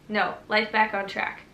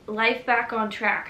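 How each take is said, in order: First: "life back on track" said firmly as a declaration. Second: "life back on track" said slow and tentative, then trailing "I hope"; doubtful. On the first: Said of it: "Well, no". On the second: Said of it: "Well, no, life back on track". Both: Shown as a demonstration.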